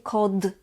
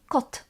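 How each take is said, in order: First: The final consonant is a voiced d. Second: The final consonant is a voiceless t. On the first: The speaker calls it wrong. "We don't say kod" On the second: The speaker calls it right. "we say kot"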